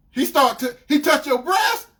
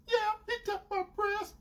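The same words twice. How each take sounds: First: Loud, high incredulous question; outraged disbelief. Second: High, soft mimicked admission; sheepish girlfriend. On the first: Retold or imitated. Boyfriend reacting to her confession, incredulous. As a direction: stammer it back in shocked outrage. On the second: Girlfriend confirming what he heard, imitated meekly.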